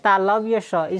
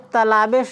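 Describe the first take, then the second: First: The first word is said with a v sound. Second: The first word is said with a b sound. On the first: The speaker calls it right. "सही से अगर पढ़ना चाहता है तो इसका नाम है" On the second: The speaker calls it wrong. "नहीं पढ़ेंगे"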